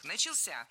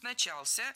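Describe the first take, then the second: First: "Начался" as началСЯ, final syllable stressed; stress on third syllable. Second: "начался" as наЧАлся, middle syllable stressed; stress on second syllable. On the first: Teacher showing the norm, "Начался" stressed началСЯ. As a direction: land the stress on the end of "Начался". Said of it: "ударение падает на третий слог". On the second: Teacher giving the allowed variant, "начался" stressed наЧАлся. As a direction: put the stress on ЧАЛ in "начался". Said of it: "некоторые словари дают второй допустимый вариант". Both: Shown as a demonstration.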